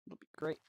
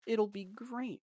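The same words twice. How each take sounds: First: Quiet. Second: Higher, upbeat repeat; excited. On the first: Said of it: "repeated with a different tune". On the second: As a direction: lift it with excitement. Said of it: "repeated, higher and excited". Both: Shown as a demonstration.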